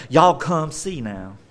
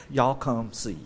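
First: Slow Southern US drawl; Southern girl. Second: Said in the usual way. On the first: Acted. Woman calls townspeople as a Southern girl, Southern drawl. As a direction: play up the Southern twang, drawn out. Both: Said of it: "if she's a Southern girl, she'd be like".

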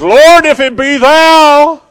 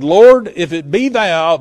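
First: Very high, loud, drawn-out holler; bold shout as Peter. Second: Said in the usual way. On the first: Acted. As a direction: belt it out slowly to the Lord across the water. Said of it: "Peter jumps up and says". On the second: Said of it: "the Bible says".

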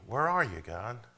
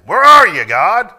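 First: Sincere seeking. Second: "Where are you, God?" shouted high and loud, accusing; accusing attitude. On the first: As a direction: ask "Where are you, God?" as a humble, searching plea. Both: Shown as a demonstration. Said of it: "Same words, different attitude".

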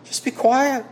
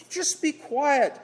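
First: Firm hush. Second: Slow high mocking hush. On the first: Retold or imitated. Preacher voicing the world silencing Christians, firm louder order. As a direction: bark the silencing order at them. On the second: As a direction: drawl it like the world shushing Christians. World's voice silencing Christians.

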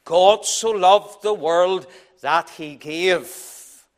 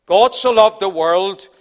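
First: Very slow, stress on "loved", ending in a fall; slow and weighty. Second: "so" lifted and stressed, ending in a rise. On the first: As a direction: draw out "God so loved the world that he gave" with deliberate weight. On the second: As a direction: lean on the word "so" with an upward turn. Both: Shown as a demonstration. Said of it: "After the revelation comes the donation".

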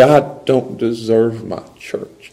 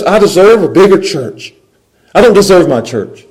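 First: Slow, quietly humble; humble gratitude. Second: High, loud mock indignation; entitled complaint. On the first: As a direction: let it sink in slowly, gratefully. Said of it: "you put on the grace lens". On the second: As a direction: protest it as unfair, voice raised. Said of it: "The fairness says". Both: Shown as a demonstration.

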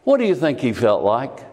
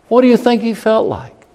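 First: Said in the usual way. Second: Much higher and louder, pressing the point; urgent raised question. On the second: Acted. Preacher presses congregation on Joseph's feelings, loud and urgent. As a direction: make them feel Joseph's pain.

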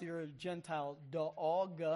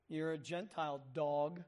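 First: Southern drawl stretching "dog" into three syllables; lightly voiced Southern accent, "dog" drawn out long; Southern "dog" sung out in three syllables. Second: Said in the usual way. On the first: Shown as a demonstration. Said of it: "And if you're from the South". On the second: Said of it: "Three syllables".

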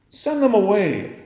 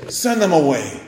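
First: Higher, scornful mimic of the disciples; mock their impatience, pitched up; mock rude demand. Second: Curt, pushy demand to send them off; rude dismissal. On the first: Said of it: "Is this your sense of showing compassion?". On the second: Retold or imitated. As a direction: snap it out like impatient disciples. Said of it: "Oh, how rude".

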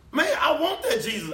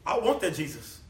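First: High, loud, laughing shout on "that"; hammed-up greedy delight, much higher and louder; mock excited shout. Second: Said in the usual way. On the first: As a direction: shout "I want that Jesus" with a laugh. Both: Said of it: "What were they gonna say?".

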